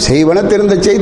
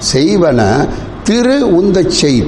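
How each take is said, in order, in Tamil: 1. Thiruntha ஒரு இடைவெளி இல்லாத ஒரே சொல்லாக சொல்லப்படுகிறது. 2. Thiruntha, thiru மற்றும் untha என இரண்டாக பிரிக்கப்படுகிறது. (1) "அது அப்படி இல்லை" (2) "சொல்லும் போது அது பிரியுது"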